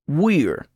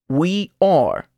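First: The words are joined into one syllable. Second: The two words are said in full. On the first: "luego contraído con el pronombre personal" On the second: "oirá el verbo sin contracción"

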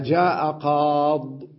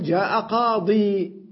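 First: The last word ends without a final 'ee' vowel. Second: The last word ends with a long 'ee' vowel. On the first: The final letter is dropped in writing. "بعضهم يقول يقف عليها جاء قاض، إذن يكتبها بدون الياء" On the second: The final letter is kept in writing. "وبعضهم يقول جاء قاضي، إذن يكتبها بالياء"

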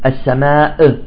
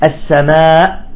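First: The final glottal stop is released with a bounce. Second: The final glottal stop is closed off sharply. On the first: The speaker calls it wrong. "السماء بقلق الهمزة، لا" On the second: The speaker calls it right. "تحبس الهمزة في الحلق، تغلق مباشرة الوترين الصوتيين"

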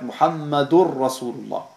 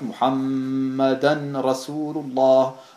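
First: The ending is said as ur before r. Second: The n is kept separate as an. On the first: "Ein berühmter Fehler ist, dass man in diesem Fall sagt Muhammadur Rasulullah" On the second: "Wenn man auch hier wieder kein Idram macht"

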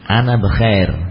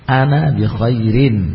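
First: The last word ends without a vowel ending. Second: The last word ends with a pronounced -in. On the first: This is the natural way of real conversation. "Kalau dalam praktek yang asli memang disukun semua" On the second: This applies the full grammar rules. "belajar untuk menerapkan kaidah"

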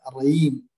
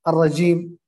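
First: The middle consonant is a y sound. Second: The middle consonant is a j sound. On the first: The speaker calls it wrong. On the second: The speaker calls it right.

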